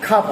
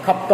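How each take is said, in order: First: "খাপ", stopping on p with no further consonant; batchim rule pronunciation. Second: "খাপ্ত", the second consonant released; expected full pronunciation. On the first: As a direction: say "খাপ" as one syllable. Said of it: "নিয়ম অনুসারে". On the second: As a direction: say "খাপ্ত" with both p and t sounded. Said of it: "হওয়ার কথা". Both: Shown as a demonstration.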